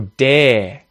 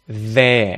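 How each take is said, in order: First: The word begins with a hard d sound. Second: The word begins with a voiced th sound. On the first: The speaker calls it wrong. "as a stop consonant, d" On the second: The speaker calls it right. "instead of there"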